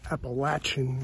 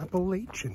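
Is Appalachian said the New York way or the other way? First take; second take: other way; New York. First: Appalachian is not said the New York way. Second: Appalachian is said the New York way. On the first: The speaker calls it right. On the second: The speaker calls it wrong.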